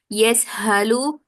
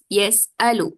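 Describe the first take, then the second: First: The middle consonant is a breathy h. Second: The middle consonant is a glottal stop. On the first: The speaker calls it wrong. "It is not yes halu ... the hamza will be replaced with this ha" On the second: The speaker calls it right. "this is yes alu"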